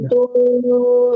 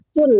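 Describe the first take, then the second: First: The final n is hidden with a nasal hum. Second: The final n is pronounced clearly, without nasal hum. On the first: The speaker calls it right. "Nah, didengung ya" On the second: The speaker calls it wrong. "jangan atun ya"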